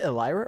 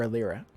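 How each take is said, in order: First: Elira with a long "eye" in the middle; Elira, stressed "lie" in the middle; first Elira pronunciation. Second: Elira with "leer" in the middle; Elira, stressed "leer" in the middle; second Elira pronunciation. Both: Shown as a demonstration. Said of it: "is it Elira or Elira".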